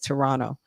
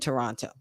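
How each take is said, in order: First: The T sounds are softened and barely pronounced. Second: Both T sounds are pronounced strongly and clearly. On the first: The speaker calls it right. "you don't pronounce the T's as strongly" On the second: The speaker calls it wrong. "excuse me"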